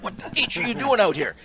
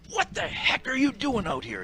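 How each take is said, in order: First: Louder scolding bark, pitched up; mock angry coach. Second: High, sharp scolding bark; mock angry coach. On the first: Coach chewing out the ref at the bench door, mock angry. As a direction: chew out the ref. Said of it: "he said". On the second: Coach scolding the struggling ref from the bench, mock angry. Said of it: "He said".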